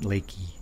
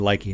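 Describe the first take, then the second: First: The first syllable sounds like 'lay'. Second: The first syllable sounds like 'lie'. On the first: The speaker calls it wrong. "not Lakey" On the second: The speaker calls it right. "so it's supposed to be Likey"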